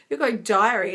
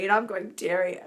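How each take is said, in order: First: "diary" said as DIE-uh-ree, with a long i; "diary" pronounced die-a-ree. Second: "dairy" said as DAIR-ee, rhymes with hairy; "dairy" pronounced dare-ee. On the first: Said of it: "You're going dairy. I'm going". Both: Shown as a demonstration.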